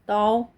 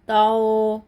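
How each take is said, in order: First: The vowel is said softly and kept short. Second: The vowel is stretched out and held long. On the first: The speaker calls it right. "हरूफ लीन को हम खींच के अदा नहीं करते" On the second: The speaker calls it wrong. "हमने ऐसे नहीं पढ़ा"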